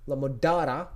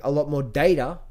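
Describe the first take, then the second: First: "data" with the first vowel of "father"; "data" as DAH-ta. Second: "data" rhyming with "later"; "data" as DAY-ta. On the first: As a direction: say "data" with an open AH, DAH-tuh. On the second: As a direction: say "data" with a long AY, DAY-tuh. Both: Real, not acted. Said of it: "Data or data?".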